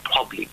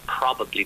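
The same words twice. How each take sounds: First: The word is clipped, with a syllable dropped. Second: The word is said in full, every syllable. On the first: "they'll just shorten it, you get clipping" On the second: "they won't say probably"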